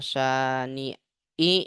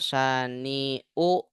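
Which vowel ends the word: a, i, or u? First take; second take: i; u. First: The word ends in the vowel i. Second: The word ends in the vowel u. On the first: "Nggak boleh" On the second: "Nggak boleh dibaca"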